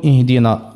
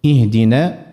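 First: اهدنا ending in a thick, dark "naa"; over-heavy back vowel closing اهدنا; wrongly heavy nun. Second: اهدنا drawn out to a thin, fronted final aa; correct light alif. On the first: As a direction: show the error, emphatic نا in اهدنا. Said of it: "يولي يفخم النون". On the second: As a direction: model نا of اهدنا as light "nae". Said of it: "الألف المادية متاع النون". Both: Shown as a demonstration.

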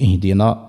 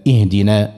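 First: اهدنا ending in a thick, dark aa; over-heavy final vowel in اهدنا; wrongly heavy alif. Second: اهدنا ending in a thin, fronted aa; careful recitation of اهدنا with unemphatic final vowel; correct light alif. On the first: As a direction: show the error, نا of اهدنا made emphatic. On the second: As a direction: keep the نا of اهدنا light, like "nae". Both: Shown as a demonstration. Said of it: "ما نقولش اهدنا".

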